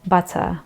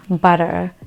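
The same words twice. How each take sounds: First: "butter" with a true T and no final R; British "butter", ending in "tuh". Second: "butter" with the T softened to a D; American "butter", like "budder". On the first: Teacher correcting the American version, British T. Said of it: "instead of saying butter, it is". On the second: Showing the version to avoid, American D-like T. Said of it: "instead of saying". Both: Shown as a demonstration.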